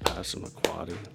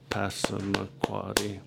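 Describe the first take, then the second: First: It is said faster with two claps. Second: It is said slowly with five claps. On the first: "If I asked you to clap twice" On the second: "you would clap once for each syllable, and you would do it pretty slow"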